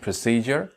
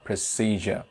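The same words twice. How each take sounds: First: First "procedure" said as pruh-SEE-jer; "procedure" ending in "jer"; r-sounded variant. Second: "procedure" said as pruh-SEE-juh; "procedure" ending in an open "juh"; British r-less variant. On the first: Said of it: "either I can pronounce it". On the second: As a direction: say "procedure" with no final r. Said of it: "or procedure". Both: Shown as a demonstration.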